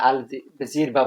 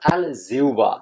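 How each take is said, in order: First: An 'r' sound comes before the 'ba'. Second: A 'u' glide comes before the 'ba'. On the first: The speaker calls it wrong. "এগুলো সঠিক উচ্চারণ না" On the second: The speaker calls it right. "সঠিক উচ্চারণ হলো"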